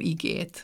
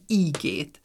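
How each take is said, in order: First: The first vowel is short. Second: The first vowel is long. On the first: This is the standard form. "és nem igét" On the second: This is the regional dialect form. "itt viszont ígét"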